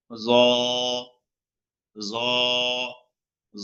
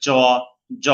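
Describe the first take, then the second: First: জ soft and full, no extra air; correct tha. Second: জ hard with breath pushed out; wrong hard tha. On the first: Teacher gives the correct Arabic letter, soft জ. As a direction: let জ sit full in the mouth. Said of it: "সহি হলো". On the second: Teacher imitates a common mistake, hard জ. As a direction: force air out on জ. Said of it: "এভাবে বলে". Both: Shown as a demonstration.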